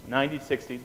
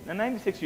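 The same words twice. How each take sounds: First: Said in the usual way. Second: "ninety" lifted high and stressed; emphatic repeat. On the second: Shown as a demonstration. Drilling the class to memorize, "ninety" stressed high. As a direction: hit "ninety" high to make it stick. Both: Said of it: "numbers to memorize".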